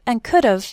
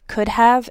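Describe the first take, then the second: First: The word have is shortened and run together. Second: The word have is pronounced fully and clearly.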